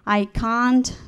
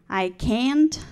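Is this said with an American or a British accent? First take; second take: British; American. First: It is said with a British accent. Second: It is said with an American accent. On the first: "we were taught British English" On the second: "we hear Americans speak"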